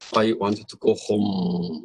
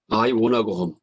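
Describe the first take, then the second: First: Want to is said fully as two words. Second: Want to is reduced and merged into wanna.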